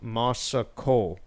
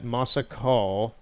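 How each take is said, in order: No difference in how they are said.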